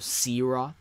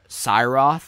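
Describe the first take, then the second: First: The first syllable sounds like 'see'. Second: The first syllable sounds like 'sigh'. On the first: Many people say the name this way. "a lot of people pronounce it Searoth because they see the S I I at the start of it and they think it's like we" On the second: The creator first meant the name this way. "I thought it would be uh, Cyroth when I first made the name"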